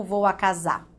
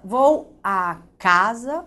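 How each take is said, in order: First: CASAR stressed on SAR, final r dropped; slow CASAR with the weight on the end; stress on last syllable. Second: CASA stressed on CA, as in the noun; stress on first syllable. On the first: Teacher contrasting two pronunciations, last syllable stressed. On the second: Teacher testing the tonic syllable aloud, CA stressed. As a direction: say CASA slowly with the weight on CA. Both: Shown as a demonstration.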